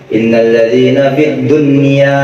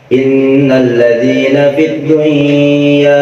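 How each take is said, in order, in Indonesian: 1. Bunyi n dibaca jelas sebelum y. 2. Bunyi n menyatu dengan y yang mengikutinya. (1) "tetap nunnya harus dijelasin" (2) "jangan dibaca"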